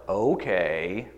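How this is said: It is said in a mildly sarcastic tone. The speaker does not mean it sincerely. "right, a little sarcastic"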